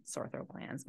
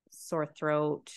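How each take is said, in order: First: Breathy laugh through the words. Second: Said in the usual way. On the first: Real, not acted. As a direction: laugh while correcting yourself. Repeats words, laughs second time.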